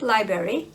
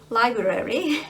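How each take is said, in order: First: The word is said in an easier, simplified way. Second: Every sound of the word is carefully pronounced. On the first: "much more easier uh, to, to pronounce it that way" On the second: "I pronounce it uh, right this time"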